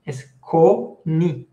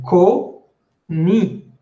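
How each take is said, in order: First: "coni" slowly, with a clear spoken n; correct pronunciation. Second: "coni" with a nasal vowel, the n not spoken; wrong pronunciation. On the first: Teacher correcting students, slow clear "coni". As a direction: model the right "coni" slowly. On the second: Teacher showing the mistake to avoid, nasal. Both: Shown as a demonstration. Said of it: "no es coni".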